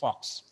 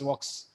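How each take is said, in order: First: It begins with an F sound. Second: It begins with a V sound. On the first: "but the pronunciation is Fox" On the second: "The spelling is V U L K S, Vox"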